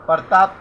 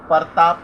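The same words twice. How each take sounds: First: प्रताप said with the pr cluster joined, as pra-taap; correct pronunciation. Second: परताप with an extra a between p and r, par-taap; wrong pronunciation. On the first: Teacher showing students the correct form, crisp and clear. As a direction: clean प्रताप, pr cluster kept tight. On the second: Teacher showing the faulty form to students, clearly sounded out. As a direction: split the cluster into परताप. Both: Shown as a demonstration. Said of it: "प्रताप को परताप कहना".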